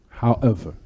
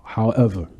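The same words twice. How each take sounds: The two takes are said the same way.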